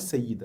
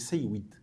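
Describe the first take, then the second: First: The middle consonant is a doubled Y sound. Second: The middle consonant includes a W sound. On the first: This is the form used today. "c'est pas sayyid à la base" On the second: This is the original underlying form. "Sayyid, bil waw"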